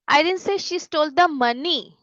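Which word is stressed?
money. The stress falls on the word money. She stole something other than money. "मतलब उसने कुछ और चुराया है, पैसे नहीं चुराए"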